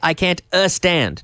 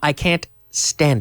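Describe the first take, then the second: First: An extra vowel sound comes before the s. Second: The s starts the word with no vowel. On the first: The speaker calls it wrong. "he doesn't say" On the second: The speaker calls it right.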